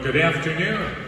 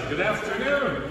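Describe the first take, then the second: First: The greeting is said in a plain, calm way. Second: The greeting is said with more enthusiasm.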